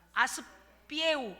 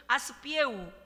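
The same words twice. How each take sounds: First: 아스피에우 drawn out syllable by syllable, slowly; slow demo of a word. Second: 아스피에우 said again at normal pace with a clear 피에우 ending; corrected word. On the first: 목사가 교인들에게 따라 하라고 천천히 발음해 주며. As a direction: model 아스피에우 slowly for the church to repeat. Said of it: "한번 해보실까요". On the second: 교정 후 교인들과 함께 다시 또박또박 말하며. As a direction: repeat 아스피에우 crisply after the correction. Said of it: "피에우예요". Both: Shown as a demonstration.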